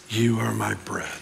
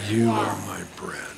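The two takes are said the same way.

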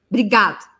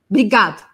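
The two takes are said the same way.

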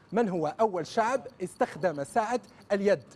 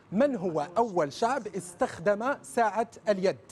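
No difference in how they are said.

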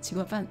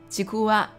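First: The last syllable is said as la. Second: The last syllable is said as wa. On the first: This is how the name sounds outside Japanese. The speaker calls it wrong. "不是吉古啦" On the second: This is how the word sounds in Japanese. The speaker calls it right. "竹轮日语发音叫吉古瓦"

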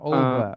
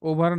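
First: The word ends on a vowel, no r sound. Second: The word ends with an audible r sound. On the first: The speaker calls it right. "ওভা sound will be the" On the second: The speaker calls it wrong. "ওভার না"

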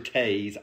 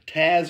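First: The vowel is long, rhyming with maze. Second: The vowel is short, rhyming with jazz. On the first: "it could be Taze, because that's kind of like more how it's spelled" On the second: "I've always said Taz, like the Tasmanian devil"

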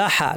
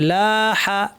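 First: The vowels are kept short. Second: The vowels are drawn out long. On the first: The speaker calls it wrong. "এখানে যদি না টানতাম বলতাম লাহা, লাহা বলবো না" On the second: The speaker calls it right. "লা হা টান আছে"

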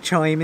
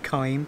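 First: The word begins with a 'ch' sound. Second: The word begins with a 'k' sound. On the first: The speaker calls it wrong. "I say chime instead of kime" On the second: The speaker calls it right. "instead of kime"

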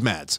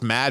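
First: The name ends with an s sound. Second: The name ends without an s sound. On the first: "He will always be Mads" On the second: "the S is silent"

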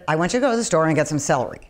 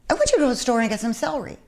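First: It has the flat tune of a direct order. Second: It has the light tune of a casual suggestion. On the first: It is a plain instruction to do something. "instead of" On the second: It is a gentle hint that something is needed. "superimposing the sound of, you know, we could use some celery on"

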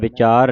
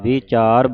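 First: The first vowel is a short i. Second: The first vowel is a long i. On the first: The speaker calls it wrong. "ਵਿਚਾਰ ਨਹੀਂ ਕਹਿਣਾ" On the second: The speaker calls it right. "ਵਿਚਾਰ ਬੋਲਣਾ ਹੈ"

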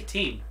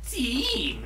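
First: The word is said flatly with no exaggeration. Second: The word is drawn out with exaggerated expression. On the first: The speaker calls it right. "Just say team" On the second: The speaker calls it wrong. "you don't have to be all, like, expressive with your teams"

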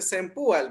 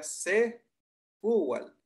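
First: An n sound comes before the p. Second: No n sound comes before the p. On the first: The speaker calls it wrong. "alguna gente dice Senpual, ¿verdad? Lo que pasa es que yo digo que es como una mala pronunciación" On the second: The speaker calls it right. "la pronunciación o la palabra correcta sería Sepual"

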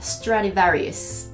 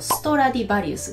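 First: It is said with English pronunciation. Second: It is said with Japanese loanword pronunciation.

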